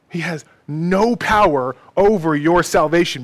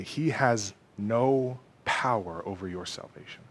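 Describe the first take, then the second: First: Loud, ringing assurance; forceful proclamation. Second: Low, soft, fading almost to a whisper; hushed assurance. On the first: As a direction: proclaim it with full conviction. Preacher repeats the assurance forcefully. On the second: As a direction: reassure them quietly, letting the last word fade. Preacher's hushed first take of assurance. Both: Real, not acted.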